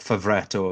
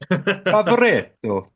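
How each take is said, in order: First: The name is said flatly, in an English accent. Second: The name is said with an Italian flourish. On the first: The speaker calls it wrong. "that pronunciation was crap" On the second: The speaker calls it right. "a bit more of a flourish"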